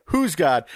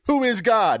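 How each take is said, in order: First: Said in the usual way. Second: "Who is God?" as three separate words, pitched up; higher, puzzled "Who is God?" with "is" spelled out in full; baffled misreading. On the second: Retold or imitated. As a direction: ask who God is, as if never heard of. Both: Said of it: "I thought he was saying".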